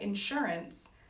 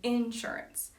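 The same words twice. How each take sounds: First: The emphasis follows the non-Georgia pattern. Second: The emphasis follows the Georgia regional pattern. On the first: "I wouldn't say insurance" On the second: "I would say insurance"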